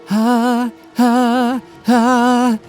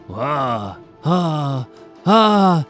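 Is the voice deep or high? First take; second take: high; deep. First: It is said in a fine, sharp voice. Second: It is said in a deep, gruff voice.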